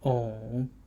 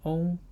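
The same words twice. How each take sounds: First: The pitch dips low and then rises. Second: The pitch stays high and level.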